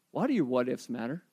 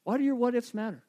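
First: Soft reflective question. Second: Same question again with weight on "your"; repeated question, stressed. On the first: Pastor asking the congregation to reflect, quietly. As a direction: drop the voice low and quiet, inviting thought. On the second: Pastor pressing the question home to listeners, emphatic. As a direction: put the weight on "your" and let it land. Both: Shown as a demonstration. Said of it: "pause and ask yourself a question".

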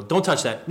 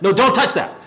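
First: Said in the usual way. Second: "don't" pressed harder, a touch louder; firmer repeat. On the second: Shown as a demonstration. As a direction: parent repeating the warning more sternly. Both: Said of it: "parents do this with their kids".

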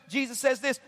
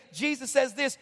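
No difference in how they are said.

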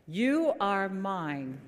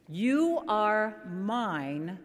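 First: Drawn out slowly, each word stretched; name the hymn again, stretched; slow title. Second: Drawn out slowly, each word stretched; slow title. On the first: Pastor repeating the hymn title for the choir, slow and stretched. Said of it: "open up your hymn books". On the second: Pastor naming the hymn to the congregation, slow and stretched. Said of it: "turn to page four thirty". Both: Shown as a demonstration.

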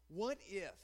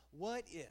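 No difference in how they are said.

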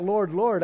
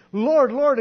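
First: Said in the usual way. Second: Loud pleading call of Lord, Lord; loud desperate Lord, Lord; crying out. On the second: Acted. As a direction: call out Lord, Lord loud, a little higher, begging.

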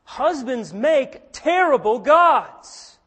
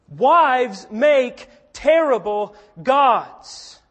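First: Slow, loud, weighty statement; emphatic declaration. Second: Even slower, loud, stress on Wives; emphatic declaration. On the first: Preacher warning the congregation, slow and loud. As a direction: land each word like a verdict. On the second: Preacher turning to wives, slow and loud. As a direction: hammer Wives, then let it fall. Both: Acted.

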